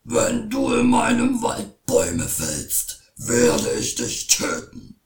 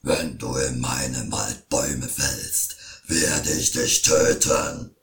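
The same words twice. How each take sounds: First: Shouting troll. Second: Very low, slow, booming troll threat; troll threatens the woodcutter, very low and loud; angry troll. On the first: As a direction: bellow the threat like a troll. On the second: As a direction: menace like a huge troll. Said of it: "schrie wütend". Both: A narrator's reading.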